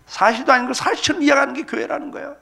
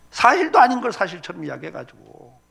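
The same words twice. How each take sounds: First: Higher, punched, preacher's outburst; 교회 비판을 외치듯 크게; emphatic shout. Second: Said in the usual way. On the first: Real, not acted.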